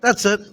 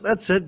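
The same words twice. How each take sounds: First: "That's it." said louder and a bit higher; emphatic. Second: Said in the usual way. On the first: Real, not acted. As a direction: stamp down "That's it." as a punchline.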